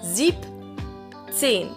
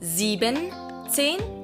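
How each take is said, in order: First: The word has two syllables, with shortened sieb. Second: The word has three syllables, with full sieben. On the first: The speaker calls it right. "You shorten the sieben and leave the en at the end" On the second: The speaker calls it wrong. "it's not siebenzehn"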